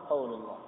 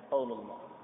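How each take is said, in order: No difference in how they are said.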